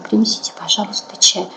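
The voice is soft and breathy on the exhale. It is said intimately. "А можно сказать более такой в интимной обстановке. Когда вдыхаем, мы говорим на выдохе до конца"

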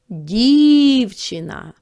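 It is called out loudly to someone. "Покличемо"

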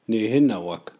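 It is said in the Cree N dialect.

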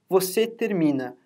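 It is said with statement intonation. It states that the listener finishes. "a gente costuma falar assim"

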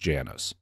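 The name is pronounced the American way. "but the American pronunciation is"

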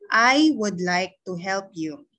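All words are said in one even tone. "Ang una kong basa, isang tono lang"

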